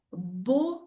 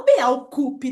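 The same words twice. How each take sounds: First: "beaucoup" as "bo-ku", with au sounding like o; correct French. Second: "Beaucoup" said as "be-au-ku-pi", every letter sounded; wrong pronunciation. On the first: Teacher to students showing the correct pronunciation. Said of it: "a pronúncia da palavra muito é". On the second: Teacher to students mocking a horrible pronunciation. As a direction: spell out "Beaucoup" clumsily, as it is written. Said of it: "E não". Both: Shown as a demonstration.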